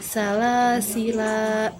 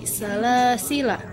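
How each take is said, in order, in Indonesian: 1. Vokal akhir dibaca panjang. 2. Vokal akhir pendek. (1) "Jika waqaf, salasila lamnya dibaca panjang" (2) "jika wasol dibaca pendek seperti salasila, lamnya dibaca pendek"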